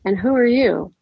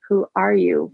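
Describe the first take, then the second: First: Forced calm, question lifted high; controlled. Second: Words pushed out through clenched teeth; through gritted teeth. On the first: A narrator's reading. Woman confronting a hostile stranger at the family grave, tightly controlled. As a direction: hold your temper in check. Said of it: "with as much control as I could muster". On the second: Acted. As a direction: hiss it through gritted teeth in barely held anger. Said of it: "I repeated through gritted teeth".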